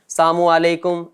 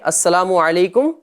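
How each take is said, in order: First: The sounds are slurred and the opening is dropped. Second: Every sound is pronounced fully and carefully. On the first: The speaker calls it wrong. "ना आइन अदा हो रहा होता है ना सीन अदा हो रहा होता है, बस चल रहे हैं" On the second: The speaker calls it right. "सलाम का जो दुरुस्त तरीका"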